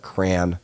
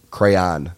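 First: "crayon" squashed to one syllable, like cran; mock the "crayon" that sounds like cran. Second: "Crayon" said as cray-on, two clear syllables; "Crayon" with the long ay, then an open on. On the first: The podcaster mocking listeners who say "crayon" as cran. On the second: The podcaster insisting listeners say "Crayon" as cray-on. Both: Shown as a demonstration. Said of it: "not crayon".

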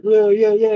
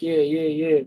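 First: Mildly excited string of cheers; retold hyping up. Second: Retold cool reply. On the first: Guest retells filming a guy's face, mildly hyped. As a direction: hype him up for the camera. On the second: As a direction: play along without much energy. The filmed guy's cooler reply.

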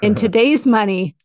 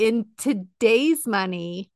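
First: Louder, punchy announcement; loud big reveal. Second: Slow, drawn-out teaser; slow dramatic build-up. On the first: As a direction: hit it like a game-show reveal. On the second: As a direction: stretch it out to build suspense. Dramatic build-up to big figure. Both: Pretend.

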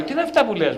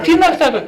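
First: Said in the usual way. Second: Much higher and louder exasperated cry; exasperated outburst. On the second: Retold or imitated. Priest retelling his outburst at the client, loud and high. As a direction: burst out in disbelief. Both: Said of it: "λέω".

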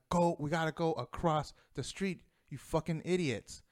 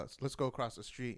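First: A retold, somewhat heated outburst at the idiots; frustrated, pushing them across the street; angry. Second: Said in the usual way. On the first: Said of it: "I'm more angry". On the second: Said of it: "I was like".

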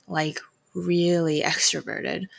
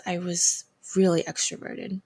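First: "really" drawn out slowly with a laugh; stress on really. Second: Said in the usual way. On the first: Shown as a demonstration.

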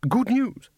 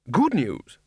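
First: High-pitched questioning echo; surprised echo. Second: Second echo. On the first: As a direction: echo it in squeaky disbelief. Nervous echo of the announcement. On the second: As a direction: repeat it as it sinks in. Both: A narrator's reading.

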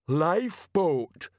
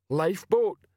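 First: Very slow, drawn-out, higher-pitched "Lifeboat"; slow dawning realisation. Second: Higher-pitched blunt character voice on "lifeboat"; ponderous Detritus. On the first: A narrator's reading. Detritus facing an unpleasant truth, slowly dawning "Lifeboat". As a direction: stretch out "Lifeboat" as unwelcome truth dawns. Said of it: "sounded like someone exploring an unpleasant truth". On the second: Acted. Detritus agreeing with a shipmate, blunt "lifeboat". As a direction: say "lifeboat" as a simple echo, pitched up.

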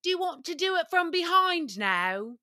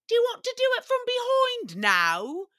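First: Higher mock British ask; a lightly put-on British voice; British accent. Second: Much higher, louder mock British ask; exaggerated high British voice; British accent. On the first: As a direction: imitate the British boyfriend politely asking. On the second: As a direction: ham up the boyfriend's prim question. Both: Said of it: "he would always ask".

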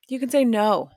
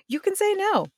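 First: Said in the usual way. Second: High sing-song. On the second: Acted. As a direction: say it way up high, lilting. Repeated line, first take.

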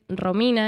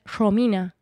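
First: Said in the usual way. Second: "Romina" con la R inicial sonando como sh. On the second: Shown as a demonstration. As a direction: di "Romina" cambiando la R por un sh suave. (Romina con la R arrastrada como sh, al estilo de su ciudad) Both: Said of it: "La R se pronuncia como sh".

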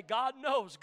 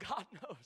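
First: Said in the usual way. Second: Laughing it out softly under the breath. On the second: Real, not acted. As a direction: chuckle through the words. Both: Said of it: "I've gotta say".

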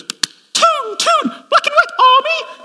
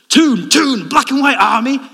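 First: Very high, loud mock female chant; imitated wife chanting. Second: Loud, high terrace chant; football chant. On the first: Wife joining in the Newcastle chant, high-pitched imitation. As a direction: squeal the football chant as an over-keen newcomer. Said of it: "she wants to get involved. So she goes". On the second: Retold or imitated. Newcastle fans cheering at the game, loud chant. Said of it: "they all do this chant where they go".

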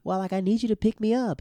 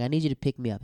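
First: Higher-pitched mock girl voice; put-on girly phone request; imitated girlfriend. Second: Said in the usual way. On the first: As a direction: play the pleading girlfriend, pitched up. Girlfriend's request, acted second take.

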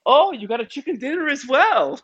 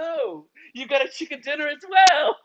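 First: High, earnest Scandinavian lilt; sweetly sincere Nordic woman; Scandinavian accent. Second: High, earnest Scandinavian lilt, now stronger; sweetly sincere Nordic woman; Scandinavian accent. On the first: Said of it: "And she goes". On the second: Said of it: "She goes". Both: Retold or imitated.

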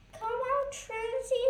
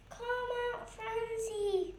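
First: Higher, louder call out; a bright shout into the bushes. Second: Said in the usual way. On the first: A narrator's reading. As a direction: call across the garden. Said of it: "shouted Legs".

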